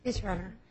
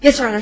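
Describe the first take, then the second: First: Quiet, barely projected acknowledgement; too quiet. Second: Loud, projected acknowledgement; much louder courtroom reply; speaking up. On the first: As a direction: answer softly, under courtroom volume. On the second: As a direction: raise your volume so the judge can hear. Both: Real, not acted. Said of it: "could you speak up a little".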